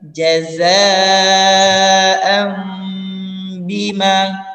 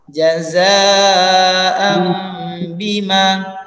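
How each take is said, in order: First: The nasal before the b is an m. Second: The nasal before the b is an m.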